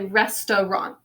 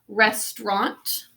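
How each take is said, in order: First: The middle vowel is an uh sound. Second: The middle vowel is silent, two syllables. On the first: "Some people say restaurant though" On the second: "some people pronounce it as silent. That's the way I usually say it"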